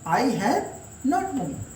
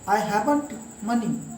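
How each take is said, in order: First: Have and not are said as separate words. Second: Have and not are joined into haven't. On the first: "This is simple way to give answer" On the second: "have और not को जोड़ दिया गया।"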